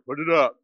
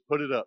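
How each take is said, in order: First: It is said in a harsh, stern tone. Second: It is said in a gentle, polite tone. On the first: It is a firm demand. "I'm going to say it a little harsher" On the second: It is a polite request. "I've asked you nicely"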